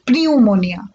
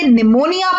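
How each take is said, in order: First: The word begins with an audible P sound. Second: The word begins without any P sound. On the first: The speaker calls it wrong. "ना कि" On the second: The speaker calls it right. "ये एक पीएन की team में है तो हम इसे निमोनिया पढ़ेंगे"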